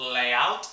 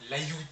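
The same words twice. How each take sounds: First: It does not sound like 'yaourt'. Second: It sounds like the French word 'yaourt'. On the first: The speaker calls it right. "qui se prononce layout" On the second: The speaker calls it wrong. "et non layout. Parce que layout, c'est une prononciation de yaourt"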